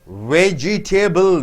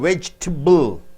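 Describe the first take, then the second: First: Every middle vowel is pronounced separately. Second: A middle vowel is squeezed out. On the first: The speaker calls it wrong. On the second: The speaker calls it right.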